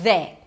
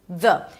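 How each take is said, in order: First: The vowel is full, like in 'day'. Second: The vowel is short and very reduced. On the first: The speaker calls it wrong. "so it's not they" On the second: The speaker calls it right. "Make sure that the vowel after is very reduced"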